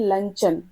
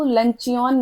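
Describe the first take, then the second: First: It is said with two syllables, 'lun-chun'. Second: It is said with three syllables, 'lun-chee-un'. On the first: The speaker calls it right. "इसको बोलते हैं लंचन" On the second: The speaker calls it wrong. "इसको लंचियन नहीं बोलते"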